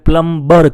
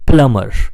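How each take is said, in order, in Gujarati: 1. m પછી b નો અવાજ બોલાય છે. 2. m પછી b નો અવાજ બોલાતો નથી. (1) "આપણે પ્લમ્બર કહીએ છીએ, પણ પાછળ પ્લમ્બર નહીં કહેવાય" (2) "સાચો ઉચ્ચાર છે પ્લમર"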